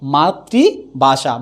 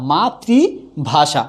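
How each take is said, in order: Both takes have the same delivery.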